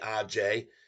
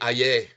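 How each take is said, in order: First: The name is said with a J sound. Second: The name is said with a silent J. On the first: "but it could be Aj as well" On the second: "in many many instances the J is silent"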